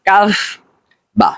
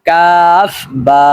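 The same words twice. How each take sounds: First: "কাফ বা" with short vowels; wrong short pronunciation. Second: "কাফ বা" with long held vowels; correct drawn-out pronunciation. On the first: Teacher showing what to avoid, "কাফ বা" not drawn out. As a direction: cut "বা" short after "কাফ", without stretching. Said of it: "এরকম উচ্চারণ করবেন না". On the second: Teacher correcting learners, "কাফ বা" slowly drawn out. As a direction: stretch both "কাফ" and "বা". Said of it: "বরং উচ্চারণ করবেন". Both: Shown as a demonstration.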